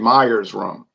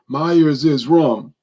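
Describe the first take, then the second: First: The name ends without an extra syllable. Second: The name ends with an extra 'iz' syllable. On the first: The speaker calls it wrong. "And so people will say Myers rum" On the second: The speaker calls it right. "so possessive would be Myers is"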